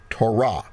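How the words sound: It is said with a Hebrew pronunciation. "if we're speaking Hebrew, we would say Torah"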